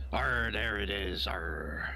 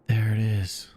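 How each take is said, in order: First: Slow, whispered pirate growl. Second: Flat Mandalorian quote. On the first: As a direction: give it a hushed pirate rasp. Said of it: "talk like a pirate". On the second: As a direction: say it flat and unimpressed. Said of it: "and the Mandalorian says". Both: Retold or imitated.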